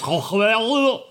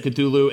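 First: Cthulhu as a drawn-out alien garble, raised in pitch; alien pronunciation. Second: Said in the usual way. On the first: Shown as a demonstration. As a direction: stretch Cthulhu into an unspeakable alien noise. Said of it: "It's honestly supposed to be pronounced". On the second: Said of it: "you can pronounce it however you want. We said Cthulhu".

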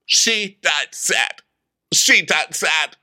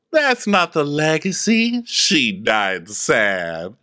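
First: Slow, solemn mock pronouncement; Vicky. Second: Phaedra. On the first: Dictating her own epitaph, slow mock solemnity. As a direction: space out each word mournfully. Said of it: "And Vicky tells them". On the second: Acted. Objecting to the legacy, very slow falling drawl. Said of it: "Phaedra goes".

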